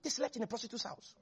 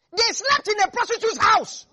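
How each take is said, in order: First: Much softer, quick knowing murmur; quiet aside. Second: Higher and louder, hammering the scandal home; loud emphatic declaration. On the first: Preacher repeating the scandal to the congregation, hushed aside. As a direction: drop the voice to a confiding hush. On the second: Preacher stressing where the spies slept, loud emphatic. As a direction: proclaim it to the whole church. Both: Shown as a demonstration. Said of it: "repeated for emphasis".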